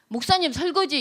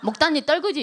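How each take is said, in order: First: It is said plainly with clear consonants. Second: It is said cutely with an exaggerated lisping tongue.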